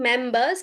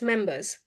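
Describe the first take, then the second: First: The first vowel is drawn out like 'mair'. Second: The first vowel is short and plain. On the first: The speaker calls it wrong. "don't exaggerate that me air sound" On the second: The speaker calls it right. "Just members"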